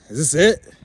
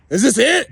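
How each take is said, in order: First: Said in the usual way. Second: Same question yelled much higher and louder; shouted challenge. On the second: Real, not acted. Drunk man challenging his own life, yelling the repeat. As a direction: throw it back as a yell.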